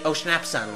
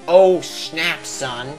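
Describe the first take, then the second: First: The words are run together as one word. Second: The words are said separately with small pauses.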